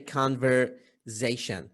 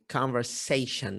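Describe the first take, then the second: First: The consonant after 'ver' sounds like z. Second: The consonant after 'ver' sounds like s. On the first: The speaker calls it wrong. "we tend to say conversation" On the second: The speaker calls it right. "the correct pronunciation of this word is conversation with S"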